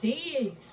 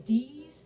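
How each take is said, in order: First: The vowel is an 'ay' sound. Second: The vowel is a long 'ee' sound. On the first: "they pronounce it Days. Days, like D A Y Z" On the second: "there are a lot of people that say D's"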